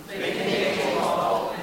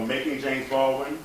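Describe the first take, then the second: First: Slow, breathy sung title; half-sung title. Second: Rising, puzzled echo of the title; puzzled audience question. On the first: Shown as a demonstration. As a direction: sing the title softly and slowly. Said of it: "And it's called Making James Baldwin". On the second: Retold or imitated. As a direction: ask it like a confused crowd. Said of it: "Everyone go".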